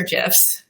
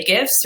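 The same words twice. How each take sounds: First: "gifs" with a soft G, like jifs. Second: "gifs" with a hard G, as in gift. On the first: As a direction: say "gifs" starting with a j sound. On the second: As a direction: say "gifs" starting with a hard g sound. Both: Shown as a demonstration. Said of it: "I know this is heavily debated".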